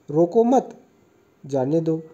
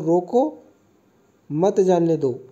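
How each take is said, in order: First: There is a pause after मत. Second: There is a pause after रोको.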